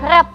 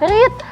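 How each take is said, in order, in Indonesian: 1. Vokalnya pendek, seperti 'red'. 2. Vokalnya panjang, seperti 'reed'.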